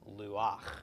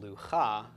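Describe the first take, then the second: First: The ch sound comes after the final a. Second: The ch sound comes before the final a. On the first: The speaker calls it right. "but instead luach" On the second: The speaker calls it wrong. "this is not pronounced lucha"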